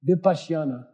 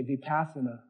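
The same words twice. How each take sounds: First: Vipassana with the original, softened sounds; proper Vipassana. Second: Vipassana said the English way, vee-PASS-uh-nuh with a hard v; corrupted Vipassana. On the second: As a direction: anglicize Vipassana, flat English a's. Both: Shown as a demonstration. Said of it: "If you wanna corrupt it".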